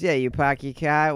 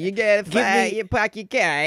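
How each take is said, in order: First: A flatter Boston accent with less energy. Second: A punchy New York accent with more energy. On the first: "The Boston is" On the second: "More that kind of energy, which Boston does not"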